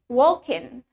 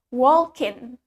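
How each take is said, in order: Both takes have the same delivery.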